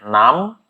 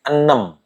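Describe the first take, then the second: First: It is said with the Indonesian pronunciation. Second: It is said with the Karo pronunciation. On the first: "Kalau bahasa Indonesianya enam" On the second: "bahasa Karo ini enam"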